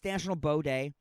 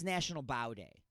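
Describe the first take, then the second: First: Bow is said to rhyme with go. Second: Bow is said to rhyme with now. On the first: The day is about the weapon for shooting arrows. "Whatever people with bows do" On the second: The day is about bending forward in respect. "I'm choosing to read it differently"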